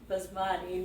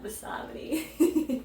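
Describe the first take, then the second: First: The word is said with three syllables. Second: The word is said with four syllables. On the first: The speaker calls it right. "It's basmati" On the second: The speaker calls it wrong. "not basamati"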